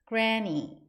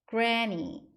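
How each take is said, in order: The two takes are said the same way.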